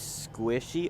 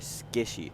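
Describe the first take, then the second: First: The name begins with a skw sound. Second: The name begins with a plain sk sound. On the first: The speaker calls it right. "It's supposed to be Squishy" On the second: The speaker calls it wrong. "I've always said it wrong"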